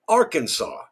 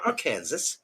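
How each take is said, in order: First: The word ends with a 'saw' sound. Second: The word ends like the word 'Kansas'. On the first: The speaker calls it right. "It must be pronounced Arkansas" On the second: The speaker calls it wrong. "not Arkansas"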